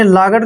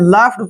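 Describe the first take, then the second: First: The middle consonant is a hard g sound. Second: The middle consonant is an f sound. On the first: The speaker calls it wrong. "आपने लागड़ नहीं पढ़ना है" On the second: The speaker calls it right. "लाफ्ड पढ़ना है"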